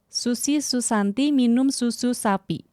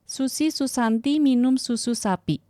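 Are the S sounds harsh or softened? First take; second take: harsh; softened. First: The S sounds are sharp and hissy. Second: The S sounds are softened and less hissy. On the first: "aku matiin" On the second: "Aku nyalain lagi"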